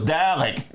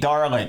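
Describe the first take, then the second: First: The first syllable is said without an R sound. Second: The first syllable is said with an R sound. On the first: This is the actual pronunciation. The speaker calls it right. "So you can imagine my surprise when it was Dalek" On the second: This is how American fans heard it. The speaker calls it wrong. "we always pronounce this Darlik. D A R L E K"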